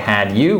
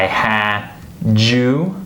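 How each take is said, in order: First: The d and y are said separately. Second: The d and y blend into a j sound. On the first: The speaker calls it wrong. "We don't say had you" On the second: The speaker calls it right. "we say I had you"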